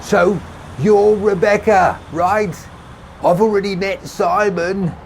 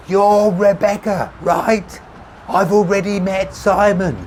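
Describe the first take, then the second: First: High, loud call across traffic; shouting over noise. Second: High shout, repeated for the hard of hearing; louder repeat. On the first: Tommy introducing himself over passing cars, shouting. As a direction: shout to be heard. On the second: Tommy repeating himself over traffic, insistent shouting. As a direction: push it out loud and drawn out. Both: A narrator's reading. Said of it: "he repeated with increasing volume".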